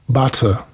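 It is said in a British RP accent. "Butter, a nie butter"

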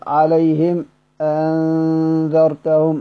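There is a brief stop between the two words. "فلما أسكت أقول"

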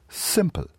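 It has an English pronunciation with a sharper S.

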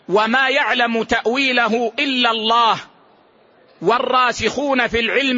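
There is a pause right after Allah. Only God knows the true outcome of it. "وما يعلم تأويله إلا الله، ثم وقف"

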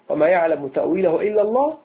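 The reading stops after 'إلا الله'. Only God knows its interpretation, meaning the unseen. "فنقف ونقول وما يعلم تأويله إلا الله، ها نقف"

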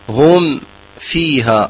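There is a short pause between the words. The speaker calls it wrong. "هذا خطأ سكت"

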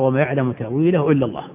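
The reading comes to a full stop after 'Allah'. Only God knows the true nature of its meaning. "الوقف على لفظ الجلالة، أن تقف تقرأ"

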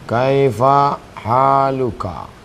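Every word is said in full with final vowels. This is the standard formal form. "Misalnya usahanya kaifa haluka"

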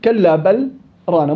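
A brief pause follows a fully pronounced lam. "مستحيل أضغم، لأنه أنا وقفت على اللام"

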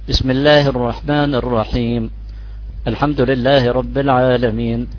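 A brief pause separates the two phrases. "بإمكان أسرع"

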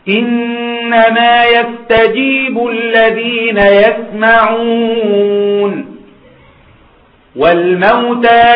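There is a pause after يسمعون. Only those who hear respond; the dead will be resurrected. The speaker calls it right. "الوقف هنا وقف ايه في كلمة يسمعون؟ لازم"

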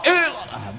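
The voice is released outward and projected. The remembrance is sent out and away from the heart. The speaker calls it wrong. "Kalau zikir yang lepas keluar begini"

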